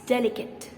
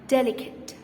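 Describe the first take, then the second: First: The final e is silent in the last syllable. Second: The final e is silent in the last syllable.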